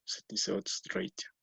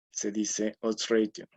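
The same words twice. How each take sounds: First: "odds ratio" said the English way, pitched higher with a rising end; English pronunciation. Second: Said in the usual way. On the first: Shown as a demonstration. Lecturer showing students the correct "odds ratio", English pronunciation. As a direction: model the English "odds ratio", lifting the voice up high. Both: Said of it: "en lugar de ratio o ratio".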